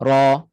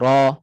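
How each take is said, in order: No difference in how they are said.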